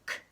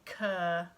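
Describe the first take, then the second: First: The sound is short and sharp, without a vowel. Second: The sound has an added vowel after it. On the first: The speaker calls it right. "Those really short, sharp sounds" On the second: The speaker calls it wrong. "we don't want them using cur"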